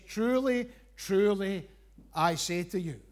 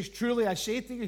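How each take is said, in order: First: Truly, truly, with the first Truly lifted and punched; doubled truly stressed. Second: Said in the usual way. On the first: Shown as a demonstration. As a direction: lean hard on the repeated Truly. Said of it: "It's a double emphasis". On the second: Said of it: "He doesn't just say".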